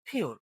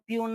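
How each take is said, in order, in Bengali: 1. p-এর মধ্যে বাতাসের একটি জোরালো ঝলক আছে। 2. p-এর মধ্যে বাতাসের কোনো ঝলক নেই। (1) "বলি ফিওর" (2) "আমরা পিওর না বলি"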